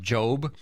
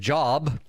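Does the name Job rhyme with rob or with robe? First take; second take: robe; rob. First: The vowel is long, rhyming with robe. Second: The vowel is short, rhyming with rob. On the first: The speaker calls it right. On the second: The speaker calls it wrong.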